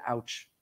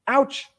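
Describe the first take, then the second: First: A small, hushed ouch, much softer and lower; quiet mock ouch. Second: A sudden ouch, higher and louder; shouted ouch. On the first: Preacher quietly voicing a community saying ouch. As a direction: let the pain slip out under the breath. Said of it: "who are screaming it". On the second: Acted. Preacher crying out the community's pain to the congregation, loud. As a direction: cry it out so everyone hears. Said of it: "We're just screaming ouch".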